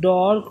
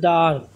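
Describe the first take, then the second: First: The vowel is a rounded 'aw' sound. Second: The vowel is an open 'ah' sound. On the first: The speaker calls it wrong. "ডর্ক না বলে" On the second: The speaker calls it right. "বলতে ডার্ক"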